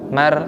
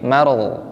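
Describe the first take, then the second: First: The r is light and thin. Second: The r is heavy and thick. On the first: The speaker calls it wrong. "mar itu kan tipis" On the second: The speaker calls it right. "tapi maru"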